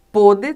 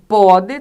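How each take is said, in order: First: PÔDE with a closed o, as if circumflexed. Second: "pode" with a wide open o, loud. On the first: Teacher showing students the past tense, "Pôde" with closed o. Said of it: "aqui é fechado". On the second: Teacher showing students the present tense, loud "pode" with open o. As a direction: stress "pode" on an open, acute-like o. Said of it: "aqui é aberto". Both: Shown as a demonstration.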